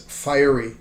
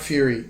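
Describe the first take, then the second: First: The first vowel sounds like 'fire'. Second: The first vowel sounds like 'few'. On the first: The speaker calls it right. "it's fiery" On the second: The speaker calls it wrong. "it's not fury"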